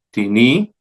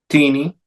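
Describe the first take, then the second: First: "tini" as ti-NI, rising; stress on last syllable. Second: "tini" as TI-ni; stress on first syllable. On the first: Teacher reciting neuter indefinites, ti-NI stressed last. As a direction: lean into the NI of "tini". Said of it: "en la última sílaba". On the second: Teacher reciting neuter interrogatives, TI-ni stressed up front. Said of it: "la primera sílaba". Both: Shown as a demonstration.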